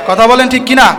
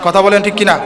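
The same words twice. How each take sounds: First: কিনা shouted out to the crowd; calling out. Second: Said in the usual way. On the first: Real, not acted. Preacher urges the audience to reply, calling out. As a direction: push the crowd to answer, louder. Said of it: "repeated louder call". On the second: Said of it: "repeated call to crowd".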